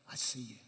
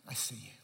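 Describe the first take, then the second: Both takes have the same delivery.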